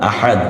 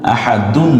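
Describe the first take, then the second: First: The word ends on a bare consonant. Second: The word ends with an added -un sound. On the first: The speaker calls it right. "আমরা আহাদ বলবো" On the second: The speaker calls it wrong. "আহাদুন না বলে"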